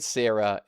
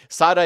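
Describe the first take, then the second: First: The name is said with an English pronunciation. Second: The name is said with an Italian pronunciation. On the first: "Sarah in English" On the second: "Sara in Italian"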